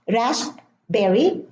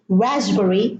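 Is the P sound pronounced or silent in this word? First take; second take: pronounced; silent. First: The P sound is pronounced in the middle. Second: The P sound is silent in the middle. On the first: The speaker calls it wrong. "We don't say ... raspberry" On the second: The speaker calls it right. "no P"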